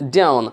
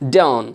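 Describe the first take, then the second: No difference in how they are said.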